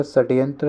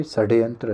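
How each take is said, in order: First: षड्यंत्र with a t-like middle, sat-yantra; teacher showing sat-yantra for षड्यंत्र; wrong pronunciation. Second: षड्यंत्र with a voiced d, sad-yantra; teacher modelling sad-yantra for षड्यंत्र; correct pronunciation. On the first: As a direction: harden the d of षड्यंत्र towards t. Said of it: "ये आपका षड्यंत्र है". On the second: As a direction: sound the d as in damru in षड्यंत्र. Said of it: "डा से डमरू वाला". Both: Shown as a demonstration.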